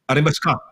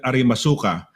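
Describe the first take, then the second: First: The u after the s is dropped. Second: The u after the s is pronounced. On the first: The speaker calls it right. "when you they read it, it would be arimaska" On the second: The speaker calls it wrong. "if you read it uh, the Tagalog way"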